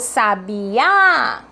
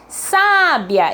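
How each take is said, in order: First: The stress is on the last syllable. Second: The stress is on the first syllable. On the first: "é meu último A" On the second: "eu tenho o meu acento no meu primeiro A"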